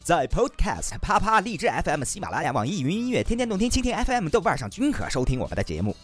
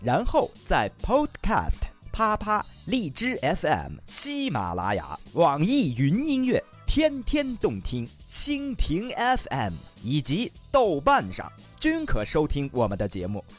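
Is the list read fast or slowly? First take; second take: fast; slowly. First: The list is read quickly. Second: The list is read slowly.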